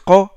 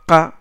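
First: The consonant is heavy and emphatic. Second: The consonant is light and plain. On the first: The speaker calls it right. "on dit qa" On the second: The speaker calls it wrong. "on dit pas qa"

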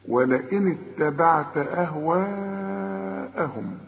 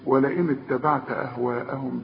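First: The long vowel before the hamza is held long. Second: The long vowel before the hamza is cut short. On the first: The speaker calls it right. "المد الواجب اللي لازم تمده عند الوقف وعند الوصل اربع حركات" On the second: The speaker calls it wrong. "ما تقولش ولئن اتبعت أهواءهم بعد، لا"

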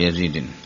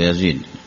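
First: The name ends with an added -n sound. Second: The name ends without an added -n sound. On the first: The speaker calls it wrong. "أنا ألحن أحيانا أقول" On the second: The speaker calls it right. "هو يزيد"

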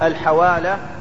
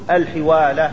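First: The first syllable has the vowel 'a'. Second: The first syllable has the vowel 'i'. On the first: "الحوالة بفتح الحاء" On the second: "وقد تكسر"

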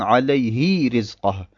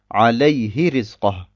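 First: The vowel after the h is drawn out. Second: The vowel after the h stays short. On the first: The speaker calls it wrong. "Es wäre falsch zu sagen" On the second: The speaker calls it right. "Wir ziehen dieses H nicht in die Länge"

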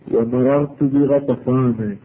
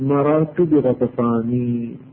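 First: The name ends in an 'a' vowel. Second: The name ends in an 'i' vowel. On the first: The speaker calls it right. "فتقول" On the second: The speaker calls it wrong. "فلا تقول"

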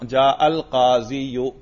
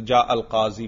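First: The word ends with a short added 'yu' sound. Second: The word ends with a plain long 'ee' sound. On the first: This is the underlying form before the vowel drops. "اصل میں تھا" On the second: This is the form actually read aloud. "وہ گر گیا تو جا القاضی پڑھیں گے"

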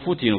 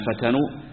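First: The verb is voiced with passive vowels, futinu. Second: The verb is voiced with active vowels, fatanu. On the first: They were the ones put through persecution. "كما في القراءة المشهورة" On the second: They were the ones who tempted others. "مبنية للفاعل"

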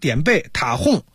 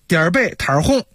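First: The first syllable has no r-coloured ending. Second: The first syllable ends with an r-coloured sound. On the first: The speaker calls it wrong. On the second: The speaker calls it right.

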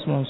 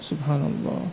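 First: The phrase is said very fast and hurried. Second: The phrase is said slowly, one at a time. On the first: The words are rushed without reflecting on their meaning. The speaker calls it wrong. "dengan suara yang cepat sekali ... Terlalu cepat" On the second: The words are said with reflection on their meaning. The speaker calls it right. "Kan tapi satu-satu"

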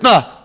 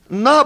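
First: It is said in a curt, rude way. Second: It is said in a warm, friendly way. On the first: The offer feels grudging, so no one wants it. The speaker calls it wrong. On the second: The offer is made willingly and kindly. The speaker calls it right.

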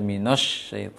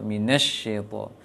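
First: A rounded 'o' vowel comes before the sh. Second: An 'e' vowel comes before the sh. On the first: "shinnya agak masih dominan bibirnya, sehingga terbaca minosh syaito"

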